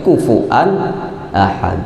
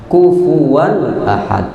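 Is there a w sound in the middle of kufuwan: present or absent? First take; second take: absent; present. First: No w sound is heard in the middle word. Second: A w sound is heard in the middle word. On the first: This is the reading of another qiraat. The speaker calls it wrong. "Jangan sampai terbaca di qiraat lain kufuan ahad" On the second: This is the reading of the Hafs narration. The speaker calls it right. "riwayat kita Hafs yaitu kufuwan ahad"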